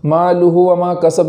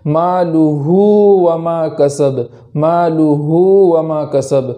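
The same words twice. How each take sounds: First: مالہ with the final u clipped short, the mistake; wrong quick reading; short ulta pesh. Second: Slow, the ہ in مالہ stretched like a long u; careful slow recitation; lengthened ulta pesh. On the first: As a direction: cut the vowel on مالہ too short. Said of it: "نہیں پڑھیں گے". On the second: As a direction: hold مالہ's final vowel like waw madda. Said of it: "اس طریقے سے پڑھیں گے". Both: Shown as a demonstration.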